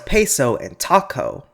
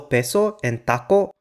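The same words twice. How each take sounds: First: The p and t have a puff of air. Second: The p and t have no puff of air. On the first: "English often does at the starts of syllables" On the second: "Spanish never aspirates the voiceless stops"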